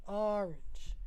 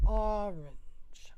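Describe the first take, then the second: First: Said in the usual way. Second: Unvoiced "Orange", falling; whispered orange. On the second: Shown as a demonstration. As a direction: breathe out Orange with no voice. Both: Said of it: "I seem to say the second one here".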